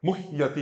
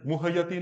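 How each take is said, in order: First: मुह्यति as "muh-yati", falling; half h. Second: मुह्यति as "mu-ha-yati"; full ha, mispronounced. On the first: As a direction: go from a breathed h straight to ya in मुह्यति. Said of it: "हा आधा ही बोलना है". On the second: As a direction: slip a vowel after the h in मुह्यति. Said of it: "मुह्यति नहीं भी". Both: Shown as a demonstration.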